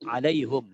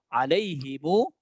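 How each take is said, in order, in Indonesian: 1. Kata ini berakhir dengan suku kata hum. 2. Kata ini berakhir dengan suku kata himu. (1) "Yang ketiga, alaihum" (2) "urutan yang kedua, alaihimu"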